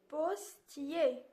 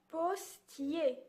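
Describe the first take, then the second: No difference in how they are said.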